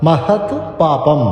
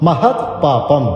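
The two takes are said the same way.

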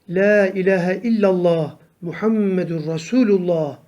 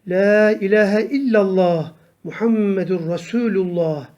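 The two takes are said the same way.

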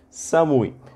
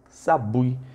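First: The middle consonant is an m sound. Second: The middle consonant is a b sound. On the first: This is the standard Japanese form. "se for japonês padrão" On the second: This is the Kansai dialect form. "dialeto de Kansai"

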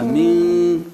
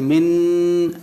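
First: The n is hidden, leaving only nasalization. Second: The n is fully pronounced as a clear consonant. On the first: "aquí solamente se percibe el gunna" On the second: "la letra nun es así"

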